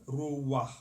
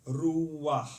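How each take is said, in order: No difference in how they are said.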